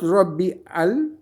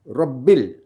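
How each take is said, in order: First: The two words are said separately. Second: The two words are joined together. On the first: The speaker calls it wrong. "Not Rabbi al" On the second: The speaker calls it right. "We say Rabbil"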